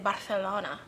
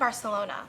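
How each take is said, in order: First: The 'c' is said with a th sound. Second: The 'c' is said with an s sound.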